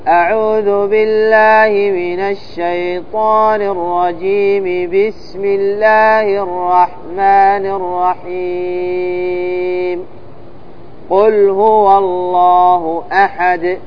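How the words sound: A pause comes only after 'rahim'. "وصل الاستعاذة بالبسملة والوقف عليها ثم الابتداء بأول السورة"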